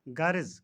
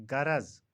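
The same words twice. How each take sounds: First: गर्ज said gha-riz; गर्ज as ghariz; mispronunciation. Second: गरज said gha-raz; गरज as gharaz; correct pronunciation. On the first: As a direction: say गर्ज with i before final z. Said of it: "का सही तलफ़ुज़". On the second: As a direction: say गरज with a before final z. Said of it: "सही तलफ़ुज़ गरज". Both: Shown as a demonstration.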